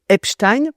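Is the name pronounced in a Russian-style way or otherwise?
otherwise. The name is given a non-Russian pronunciation. "je dirais Epstein"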